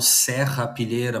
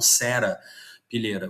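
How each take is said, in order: First: It is said the Brazilian way, with a double R. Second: It is said the Portugal way, with a single R. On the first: "no Brasil a gente escreve com dois R's, tá, por isso que eu falo serrapilheira" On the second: "vocês só falam com um com um R, então provavelmente vocês falam serapilheira"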